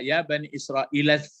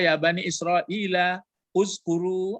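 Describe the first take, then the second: First: The words run together without the initial hamzah. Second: The initial hamzah of uskuru is pronounced separately. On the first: "cara membacanya" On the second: "tapi boleh juga"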